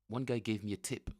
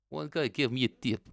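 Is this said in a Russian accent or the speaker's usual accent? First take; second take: usual; Russian. First: It is said in the speaker's usual accent. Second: It is said in a put-on Russian accent.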